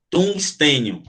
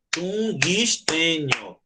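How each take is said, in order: First: Said in the usual way. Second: "tungstênio" drawn out slowly as tun, guis, tê, nio; four clapped syllables. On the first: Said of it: "porque você fala tungs". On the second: Shown as a demonstration. Teacher showing a miscount by clapping, "tungstênio" split into four syllables. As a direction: chant "tungstênio" in four slow, separate beats. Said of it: "Se você fosse bater palma".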